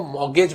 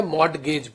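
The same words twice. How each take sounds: First: "मॉर्गेज" with no T, straight from "mor" into "gej"; silent T. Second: "मॉर्गेज" with an audible T before "gej"; T pronounced. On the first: Teacher shows students how some people say it, silent T in "मॉर्गेज". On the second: Teacher shows students the other way people say it, sounded T in "मॉर्गेज". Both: Shown as a demonstration. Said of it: "टी silent करते हैं".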